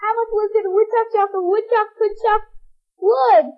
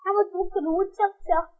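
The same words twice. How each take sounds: First: Fast, higher woodchuck chant; rushed tongue twister. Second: Quick mumbled woodchuck twister; fast and soft. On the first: Child racing through the woodchuck twister. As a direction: rattle it off at speed. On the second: Child trying the twister quickly and softly. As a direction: hurry it under your breath. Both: Shown as a demonstration. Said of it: "You say that?".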